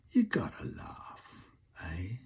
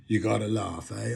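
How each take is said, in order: First: Soft, slow whispered Cockney saying. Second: Said in the usual way. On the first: Acted. First saying of the phrase.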